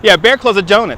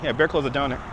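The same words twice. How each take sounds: First: Said in the usual way. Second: Much softer, half to himself; quiet repeat. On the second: Real, not acted. Streamer repeating a chat answer, much softer. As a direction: murmur it back under your breath.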